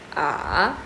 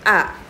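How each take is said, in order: First: The pitch dips low then rises. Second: The pitch drops sharply from high. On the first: "Nada tiga turun naik ... diayun" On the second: "Nada empat dibentak"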